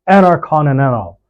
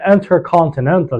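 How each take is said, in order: First: The T after N is silent. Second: The T after N is pronounced. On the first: "you say intercontinental" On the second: "instead of saying intercontinental"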